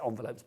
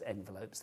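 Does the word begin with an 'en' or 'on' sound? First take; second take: on; en. First: The first vowel sounds like 'on'. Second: The first vowel sounds like 'en'. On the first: The speaker calls it wrong. "I do say envelopes" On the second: The speaker calls it right. "but I know it's envelopes"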